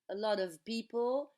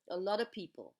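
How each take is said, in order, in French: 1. La phrase est prononcée à vitesse normale. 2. La phrase est prononcée vite, avec 'of' réduit.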